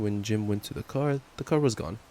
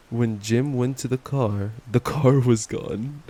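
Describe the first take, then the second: First: Said in the usual way. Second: Louder, slow, stunned reread; mock shocked reread. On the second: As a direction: read it again as if you can't believe it.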